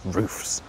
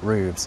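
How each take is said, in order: First: The word is said with an f sound. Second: The word is said with a v sound. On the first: The speaker calls it right. "it's actually roofs" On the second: The speaker calls it wrong. "not roofs"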